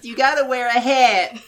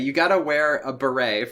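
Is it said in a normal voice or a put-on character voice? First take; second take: character voice; normal. First: It is said in a put-on Meowth-like voice. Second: It is said in her normal voice.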